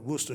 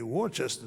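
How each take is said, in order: First: The name is shortened to two syllables. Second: Every written syllable is pronounced, like Dorchester. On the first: This is how locals say the name. The speaker calls it right. "I wasn't privy to calling it Worcester" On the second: This is how an outsider reads the name. The speaker calls it wrong. "when I first saw W O R C E S T E R, it had to be Worcester"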